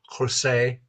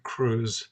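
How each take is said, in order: First: The name is said as two syllables. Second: The name is said as one syllable. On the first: The speaker calls it right. "It's Crusee" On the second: The speaker calls it wrong. "if somebody chooses to pronounce it Cruz, That's their problem"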